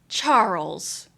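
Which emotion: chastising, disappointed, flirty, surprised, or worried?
chastising. The name is said in a scolding tone.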